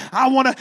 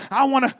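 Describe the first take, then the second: No difference in how they are said.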